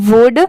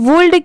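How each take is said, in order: First: The word is said without an L sound. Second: The word is said with an L sound. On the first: The speaker calls it right. "यहाँ पर letter L silent है" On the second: The speaker calls it wrong. "इसे हम वुल्ड क्यों नहीं पढ़ते"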